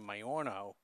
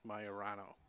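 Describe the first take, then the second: First: The name is said with three syllables. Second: The name is said with four syllables. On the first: The speaker calls it wrong. "So I was saying Majorno" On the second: The speaker calls it right. "but I believe it's Majorano"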